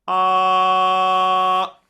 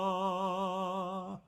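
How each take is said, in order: First: It is louder, with less energy. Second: It is softer, with more energy.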